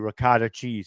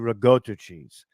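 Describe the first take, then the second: First: It is said with an Americanized pronunciation. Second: It is said with an Italian pronunciation. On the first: The speaker calls it wrong. "Just like they say ricotta cheese" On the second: The speaker calls it right. "It's really ricotta cheese"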